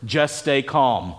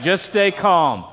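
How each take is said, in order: First: Lower, softer and slow, soothing; a slow, hushed reassurance; calm, soothing. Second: Slow, gentle repeat; slow, calm echo of the phrase. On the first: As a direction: ease them down, slow and low. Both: Shown as a demonstration. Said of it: "these amazing three words".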